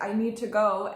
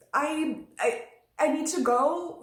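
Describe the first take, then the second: First: Said in the usual way. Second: Higher, louder, urgent stammer; acting burned finger. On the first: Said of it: "all you can say is". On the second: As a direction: act distracted by a burnt finger, stammering to get away. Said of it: "if I just burned my finger".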